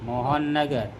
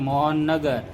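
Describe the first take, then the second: No difference in how they are said.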